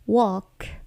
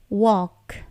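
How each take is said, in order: The two takes are said the same way.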